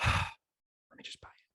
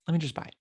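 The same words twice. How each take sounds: First: Sighed out, slow and voiceless; sigh, then whisper it in resignation; resigned whisper. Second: Said in the usual way. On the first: Acted. Shopper giving in with Halloween days away, resigned whisper. Resigning himself to buying the costume.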